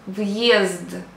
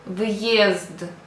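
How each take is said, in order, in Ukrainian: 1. Після v чується окремий звук y. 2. Після v чується окремий звук y.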